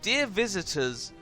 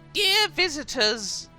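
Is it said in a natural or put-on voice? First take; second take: natural; put-on. First: It is read in a natural voice. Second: It is read in a put-on voice.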